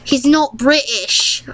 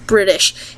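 First: Higher, drawn-out mock British accent; slow fake British, pitched up; bad British accent. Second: Said in the usual way. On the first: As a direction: put on a hammy, unconvincing British accent. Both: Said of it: "that was a bad accent".

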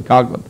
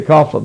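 First: Coughlin said as COG-lin; hard g pronunciation. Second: Coughlin said as COFF-lin; f pronunciation. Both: Shown as a demonstration. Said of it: "you're talking to says Coughlin".

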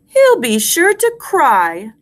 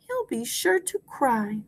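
First: Slow, higher, full voice; slow rhyme recitation. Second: Much softer repeat; soft echo. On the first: Teacher gives class a line to repeat, slow and high. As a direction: lift it and space it out. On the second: Teacher repeats along with class, softly. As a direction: say it quietly along. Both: Shown as a demonstration.

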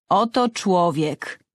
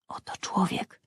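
First: Slow proclamation. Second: Unvoiced awed whisper of Oto człowiek; whispered echo. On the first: Acted. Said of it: "przemawia Piłat". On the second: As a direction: breathe Oto człowiek in awe. Narrator echoing Pilate.

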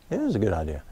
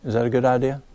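First: IS said firm and lower, falling, answering the doubt; stress on IS. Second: Said in the usual way. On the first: Real, not acted. Reassures the questioner, lower and softer with IS stressed. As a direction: lean on IS to settle it.

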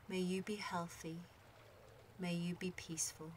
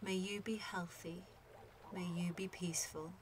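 The two takes are said the same way.

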